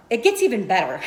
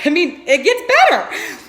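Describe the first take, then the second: First: Said in the usual way. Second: Laughing and louder through the line. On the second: Real, not acted. Teasing her listeners that it gets better, laughing. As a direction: let the laugh break into the teaser.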